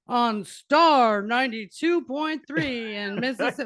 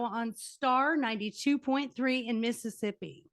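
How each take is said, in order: First: It is said in a put-on radio DJ voice. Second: It is said in an ordinary conversational voice.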